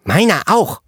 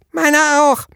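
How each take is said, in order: First: Put-on high child voice leaning on auch; child chiming in. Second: Put-on much higher child voice stressing meiner; another child chiming in. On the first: Child echoing the girl, high voice, auch stressed. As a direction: chime in with the word auch stressed. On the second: Second child echoing, very high, meiner stressed. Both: A narrator's reading. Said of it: "hallte es aus der Zwergenfraktion".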